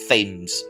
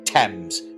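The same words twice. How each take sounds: First: The name is said the American way. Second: The name is said the British way. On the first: The speaker calls it wrong. "not Thames. Goddamn Americans" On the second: The speaker calls it right. "it is pronounced the River Thames"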